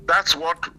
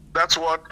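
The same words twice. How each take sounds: The two takes are said the same way.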